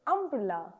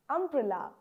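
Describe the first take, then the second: No difference in how they are said.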